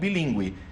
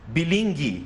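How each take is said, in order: First: The u after the g is clearly pronounced. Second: The u after the g is silent. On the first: "e não bilíngue" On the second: "sem o trema, você teria que ler"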